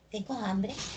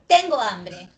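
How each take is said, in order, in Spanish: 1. La voz sube al final. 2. La voz baja al final. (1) "Y la puedo cambiar por" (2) "acá dice, tengo hambre"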